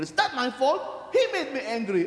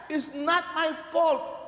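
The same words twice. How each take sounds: First: Mock excuse. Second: "It's not my fault" slow and higher, stretched like a whine; drawn-out excuse. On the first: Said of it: "the second word that when you get angry". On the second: Retold or imitated. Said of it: "people say that".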